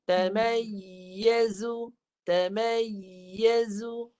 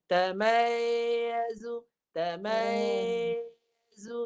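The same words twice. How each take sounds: First: Tamayyazu with the middle of the tongue lifted on yy, very slow; slow correct tamayyazu demo; raised mid tongue. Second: Slow demo of a flat yy in tamayyazu; tongue not raised. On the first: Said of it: "Kalau naik tengah lidah". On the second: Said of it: "Itu tak naik". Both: Shown as a demonstration.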